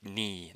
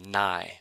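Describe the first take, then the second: First: The vowel sounds like 'ee'. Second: The vowel sounds like 'eye'. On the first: The speaker calls it right. "N I sounds like ni" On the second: The speaker calls it wrong. "not N, um, or nai"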